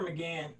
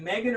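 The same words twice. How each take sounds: First: McGann said muh-GAN; second-syllable stress pronunciation. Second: Megan said MAY-gun; first-syllable stress pronunciation. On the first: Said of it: "Is it Megan or McGann?". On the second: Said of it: "it's actually pronounced Megan". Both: Shown as a demonstration.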